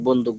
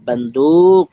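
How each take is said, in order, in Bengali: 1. d-এর পরের স্বরটি হ্রস্ব। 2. d-এর পরের স্বরটি টেনে দীর্ঘ করা হয়। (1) "কোনো আকারও লাগাই না, কোনো টানও দেই না" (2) "এখানে টান দিচ্ছে কোথায়, দালের পরে"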